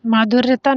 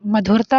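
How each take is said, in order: First: माधुर्यता with long first "maa" and added "-ta"; incorrect form. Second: मधुरता with short first "ma"; correct form. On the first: Teacher showing students a form that doesn't exist, incorrect form. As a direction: say माधुर्यता as "maa-dhur-ya-taa". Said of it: "माधुर्यता नहीं होता". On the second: Teacher giving students the accepted word, correct form. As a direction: say मधुरता as "ma-dhur-taa", no "ya". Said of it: "मधुरता हो या तो माधुर्य". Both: Shown as a demonstration.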